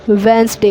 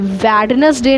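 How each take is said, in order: First: The first d and middle e are dropped. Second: Every letter is sounded, including the first d. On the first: The speaker calls it right. "वेंसडे होता है" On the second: The speaker calls it wrong. "ये वेडनेसडे ना होकर"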